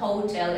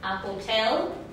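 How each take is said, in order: First: The stress is on the first syllable. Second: The stress is on the second syllable. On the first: The speaker calls it wrong. "No digan hotel" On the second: The speaker calls it right. "tiene el acento en la segunda"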